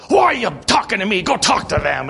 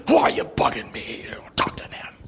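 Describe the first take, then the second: First: Higher, louder mock snap at the pastor; imitated irritated retort. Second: Hushed, breathy retold retort; whispered retelling. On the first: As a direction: toss the question back, annoyed, then wave him off. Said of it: "and he goes". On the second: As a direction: say it again under your breath, as if confiding.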